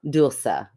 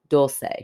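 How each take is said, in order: First: The name is said with a Spanish pronunciation. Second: The name is said with an American accent. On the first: "In Spanish, it's dulce, which is beautiful" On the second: "all of her American friends with American accents call her Dulce, D O L dash S A Y"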